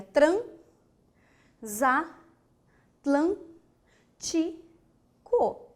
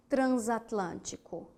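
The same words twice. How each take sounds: First: "transatlântico" very slowly as tran, za, tlân, ti, co; syllable by syllable. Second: Said in the usual way. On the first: Shown as a demonstration. Teacher giving the correct separation, very slow detached syllables. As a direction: pause after each syllable of "transatlântico", the s opening "za". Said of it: "qual é a correta". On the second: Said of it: "para a palavra".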